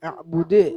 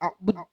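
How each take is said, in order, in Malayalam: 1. അവസാന 'd' മുഴക്കമുള്ള തട്ടലോടെ അവസാനിക്കുന്നു. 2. അവസാന 'd' മുഴക്കമില്ലാതെ പരന്ന് നിൽക്കുന്നു. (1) "ഈ ശബ്ദം, ആ മുഴക്കം കേൾക്കണം" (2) "എന്ന് ഓതരുത്"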